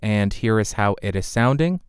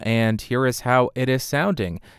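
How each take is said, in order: First: The voice has a fuller low end. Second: The voice has a thinner low end. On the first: The microphone's high pass filter is off. "I do not have the high pass filter engaged" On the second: The microphone's high pass filter is on. "now I have engaged the high pass filter on the microphone"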